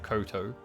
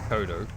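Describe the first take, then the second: First: The middle consonant is a T sound. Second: The middle consonant is a D sound. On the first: The speaker calls it wrong. "not Koto. What the heck is a Koto?" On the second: The speaker calls it right. "Kodo, not Koto"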